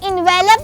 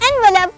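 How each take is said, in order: First: The stress is not on the first syllable. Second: The stress is on the first syllable. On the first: The speaker calls it wrong. "ये envelope नहीं" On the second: The speaker calls it right. "Stress should be on the first syllable"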